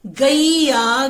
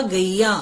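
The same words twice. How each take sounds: First: "गैया" very slowly, as गई-या; teacher's drawn-out "गैया" with the ai glide; sounding out. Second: Said in the usual way. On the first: Shown as a demonstration. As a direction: stretch both syllables of "गैया". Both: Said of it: "ग में क्या लिखेंगे".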